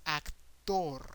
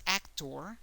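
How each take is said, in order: First: "actor" stressed on the last syllable, ac-TOR; Spanish "actor", open vowels, falling on a long TOR; Spanish pronunciation. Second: "actor" stressed on the first syllable, AC-tor; English "actor" with a light second syllable; English pronunciation. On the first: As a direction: hold back AC and land hard on TOR. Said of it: "the emphasis is in the last syllable". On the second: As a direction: hit AC in "actor", English style. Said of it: "The emphasis is more in the first syllable". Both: Shown as a demonstration.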